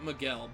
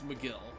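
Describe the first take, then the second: First: The name sounds like 'Mee-GEL'. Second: The name sounds like 'Mc-GILL'. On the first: The speaker calls it wrong. "I keep pronouncing it Miguel" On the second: The speaker calls it right. "but it's McGill"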